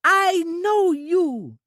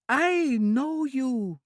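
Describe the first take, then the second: First: Put-on much higher and louder, very slow childlike cry; bursting with childish joy at a friend; high, slow, loud childlike delight; delighted Trudy. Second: Put-on high, slow childlike voice, delighted; a simple girl thrilled to see a friend; high, drawn-out childlike delight; delighted Trudy. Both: A narrator's reading. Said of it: "Trudy said delightedly".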